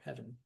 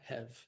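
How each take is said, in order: First: The word is said with two full syllables. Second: The word is squeezed into one syllable.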